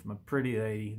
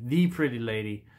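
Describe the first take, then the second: First: Said in the usual way. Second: Proud correction landing on "the" before "pretty lady"; stress on THE. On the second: Shown as a demonstration. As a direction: lean on "the" to mean the one pretty lady.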